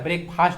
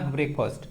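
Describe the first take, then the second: First: The second syllable has a full 'fast' vowel. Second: The second syllable has a reduced 'first' vowel. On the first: The speaker calls it wrong. "ब्रेकफास्ट नहीं ना" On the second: The speaker calls it right. "जैसे फर्स्ट का pronunciation होता है ना फर्स्ट"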